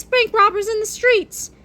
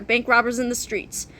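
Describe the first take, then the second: First: High, agitated reading of a dislike; pitched-up comic distaste. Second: Said in the usual way. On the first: A narrator's reading. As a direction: say it high, as a pet hate. Same words listed as dislikes.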